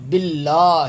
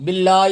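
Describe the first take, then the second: First: "باللہ" as billaa-hi, with an audible h; h clearly sounded. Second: "باللہ" with the final h dropped, ending in a bare "ee"; falsche Aussprache. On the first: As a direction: sound the h in the last syllable of "باللہ". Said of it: "ہا کی آواز آئے گی". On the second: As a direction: say "باللہ" as billa-ee, without the h. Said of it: "وہ ہے ہی نہیں". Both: Shown as a demonstration.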